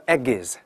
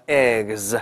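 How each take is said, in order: First: "eggs" as two syllables, "egg-iz"; 错误读法. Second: "eggs" as one syllable, g straight into a voiced z; 词尾发z. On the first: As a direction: wrongly add a vowel between g and z in "eggs". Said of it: "你不能叫eggs". (把"eggs"错读成"egg-iz"，多加一个音节) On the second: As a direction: draw out "eggs" with a buzzing z ending. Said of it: "它要发z". ("eggs"只读一个音节，g后直接发z) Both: Shown as a demonstration.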